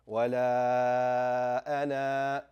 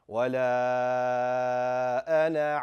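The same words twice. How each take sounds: First: The final vowel is long before a full stop. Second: The final vowel is short, running into the next word. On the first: The reciter stops at this word. "You're going to stop on it" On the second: The recitation continues without stopping. "continue the entire verse"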